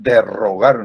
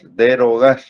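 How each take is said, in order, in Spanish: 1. La r del medio es un trino fuerte. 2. La r del medio es un solo toque suave. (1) "Algunos dicen derrogar, no, no" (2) "Aquí es solo una R, es derogar"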